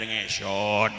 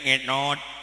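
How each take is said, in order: First: The word is said clearly without lisp. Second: The word is said with a lisp. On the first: The speaker calls it right. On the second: The speaker calls it wrong. "diajaran cadel"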